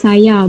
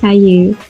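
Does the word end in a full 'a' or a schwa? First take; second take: full a; schwa. First: The final vowel is a full open 'a'. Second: The final vowel is a reduced schwa. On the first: The speaker calls it right. "saya disebut saya" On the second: The speaker calls it wrong. "bukan saya"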